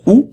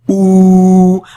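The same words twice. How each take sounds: First: The vowel is held only briefly. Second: The vowel is drawn out for longer. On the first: "comme celle-là donnait le son OU" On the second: "le son OU mais prolongé"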